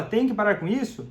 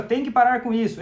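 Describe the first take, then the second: First: Said in the usual way. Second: A firm, demanding order, a touch louder; bossy demand. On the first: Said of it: "quando fala". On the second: Shown as a demonstration. A hint of the demanding partner ordering the drinker to quit. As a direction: snap out a firm command to stop. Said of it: "falando assim, ó".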